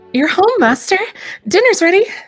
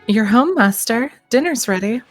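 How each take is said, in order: First: It is said affectionately, as if missing someone dearly. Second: It is said in a plain, neutral tone.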